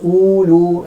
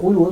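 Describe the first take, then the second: First: The first vowel is drawn out long. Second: The first vowel is kept short. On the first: The speaker calls it wrong. "jangan baca ulu, ada kan, tak kena" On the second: The speaker calls it right. "kena baca ulu terus"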